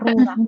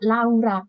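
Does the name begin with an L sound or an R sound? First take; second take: R sound; L sound. First: The name starts with an R-like sound. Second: The name starts with a clear L sound. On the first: This is how Westerners say it. The speaker calls it right. "Nyebutnya Rora" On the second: This is how Indonesians say it. The speaker calls it wrong. "itu orang Indonesia yang nyebut"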